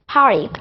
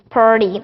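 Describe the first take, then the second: First: It is said in a British accent. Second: It is said in an American accent.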